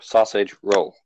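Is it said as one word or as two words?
two words. It is said as two separate words. "or is it two separate words"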